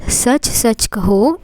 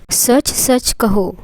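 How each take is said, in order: Both takes have the same delivery.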